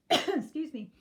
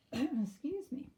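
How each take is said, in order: First: Hoarse after a cough; rough, strained excuse me. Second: Slow, hoarse after throat clearing. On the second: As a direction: voice giving out. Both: Real, not acted. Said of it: "I'm losing my voice".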